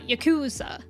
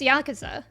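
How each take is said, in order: First: The second-to-last syllable is stressed. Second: All syllables are stressed evenly.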